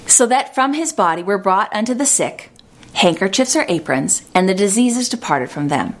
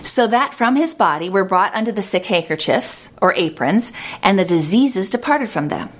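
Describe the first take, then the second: First: There is a pause between 'sick' and 'handkerchiefs'. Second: It runs 'sick handkerchiefs' together without a pause.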